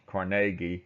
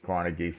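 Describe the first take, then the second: First: The name is said the Scottish way. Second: The name is said the common English way. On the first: "if you want to be more accurate in the Scottish pr- pronunciation of his name, it's Carnegie" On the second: "usually everybody says Carnegie"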